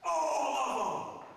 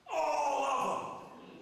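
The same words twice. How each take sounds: First: Slow, loud, emphatic cry; emphatic shout. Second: Drawn out and loud, even harder; emphatic shout. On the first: Preacher shouting to the congregation, emphatic. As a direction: hammer every word home. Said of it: "I'm gonna be emphatic". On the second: Preacher repeating to the congregation, emphatic shout. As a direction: drive it home once more. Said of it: "I'm gonna be emphatic one more time". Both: Real, not acted.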